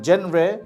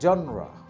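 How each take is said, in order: First: It is said like jen-ray, with a j sound. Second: It is said like zhon-ra, with an open first vowel. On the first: The speaker calls it wrong. "Not জেনরে" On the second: The speaker calls it right. "শব্দটা হচ্ছে জনরা"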